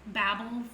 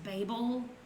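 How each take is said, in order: First: The word is pronounced the speaker's own non-British way. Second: The word is pronounced the British way. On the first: "it's pronounced Babel for me" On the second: "it's pronounced Babel if you're British"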